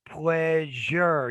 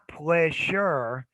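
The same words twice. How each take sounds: First: The middle consonant is a voiced 'zh' sound. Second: The middle consonant is a voiceless 'sh' sound. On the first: The speaker calls it right. "You got to change this to a Z. A Z hat check" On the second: The speaker calls it wrong. "Not pleasure"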